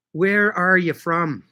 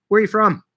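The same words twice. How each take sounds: First: Much slower, spaced-out question; slow, deliberate repeat. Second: Said in the usual way. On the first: Real, not acted. Asking a livestream viewer where they're from, slowly and deliberately. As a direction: draw the question out word by word.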